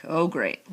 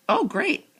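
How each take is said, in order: First: Sarcastic dismay. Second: "Oh, great" high, louder and delighted; pleased realization. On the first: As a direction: groan inwardly at a coming lecture. First, dreading dad's lecture. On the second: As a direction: brighten up at a lucky delay. Then, glad the lecture delays woods. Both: A narrator's reading.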